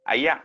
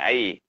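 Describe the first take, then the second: First: It is said in a northern Malay accent. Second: It is said in a Kuala Lumpur accent.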